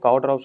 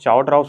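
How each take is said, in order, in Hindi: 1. शब्द 'k' की आवाज़ से शुरू होता है। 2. शब्द 'ch' की आवाज़ से शुरू होता है। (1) "बट मैं इन्हें काओट्रॉप्स बोलता हूँ" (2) "आई डोंट नो चाओट्रॉप्स बोलेंगे या काओट्रॉप्स बोलेंगे"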